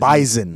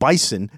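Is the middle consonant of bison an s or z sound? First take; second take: z; s. First: The middle consonant is a buzzing z sound. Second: The middle consonant is a hissing s sound. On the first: The speaker calls it wrong. "call them bison" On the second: The speaker calls it right. "we pronounce our S's properly"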